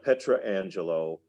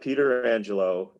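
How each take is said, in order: First: The name starts with a 'Petra' sound. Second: The name starts with a 'Peter' sound. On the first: "it's not Petra Angelo" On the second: "It's not Peter Angelo"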